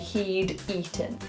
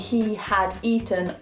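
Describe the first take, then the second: First: The word had is contracted to a d sound. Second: The word had is said in full. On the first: "a lot of native speakers will say he'd eaten" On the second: "instead of saying he had eaten"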